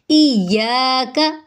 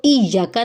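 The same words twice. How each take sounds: First: इय्याका slowly with a long या; correct recitation. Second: इय्याका with a quick short या; wrong pronunciation. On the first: Teacher shows the right इय्याका, slow and drawn out. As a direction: draw out the या in इय्याका. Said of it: "इसको इय्याका नहीं पढ़ेंगे". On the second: Teacher shows the wrong quick इय्याका. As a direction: rush the या in इय्याका. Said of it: "नहीं पढ़ेंगे". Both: Shown as a demonstration.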